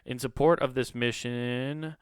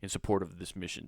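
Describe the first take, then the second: First: It is read in a casual tone. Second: It is read in a serious tone.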